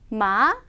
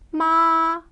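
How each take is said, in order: First: The pitch rises sharply at the end. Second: The pitch stays high and level. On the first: It means hemp. "끝을 확 올려주시고요" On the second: It means mother. "평평하게 발음을 하셔야 돼요"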